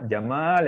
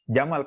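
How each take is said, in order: First: The vowel is said long. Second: The vowel is said short. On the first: It means beautiful. "Jamal yang panjang yang panjang itu indah" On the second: It means camel. "Jamal pendek itu artinya unta"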